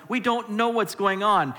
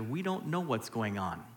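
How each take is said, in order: First: Louder, higher "we don't know what's going on"; rising emphasis. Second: Softly and low: "we don't know what's going on"; hushed, almost to yourself; quiet, low statement. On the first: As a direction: preach it out, hitting "know". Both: Shown as a demonstration. Same line repeated, escalating.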